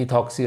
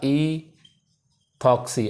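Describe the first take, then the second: First: Said in the usual way. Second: "ईथॉक्सी" very slowly, first sound held, then a gap; slow syllable split. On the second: Shown as a demonstration. Teacher giving students the two-carbon name, "ईथॉक्सी" slowly in separated parts. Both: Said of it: "तो इसे क्या बोलूँगा".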